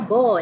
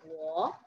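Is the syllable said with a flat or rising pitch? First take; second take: flat; rising. First: The syllable is said with a flat pitch. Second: The syllable is said with a rising pitch. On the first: The speaker calls it wrong. "Jadi jangan bacanya bo ya, bacanya harus bahasa Mandarin" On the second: The speaker calls it right. "Ini intonasi kedua. Jadi bacanya Bo U Guan"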